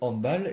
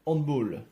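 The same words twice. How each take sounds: First: Handball is pronounced in the French way. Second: Handball is pronounced in the English way. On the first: The speaker calls it right. "La prononciation en français euh, en européen" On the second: The speaker calls it wrong. "comme à l'anglaise"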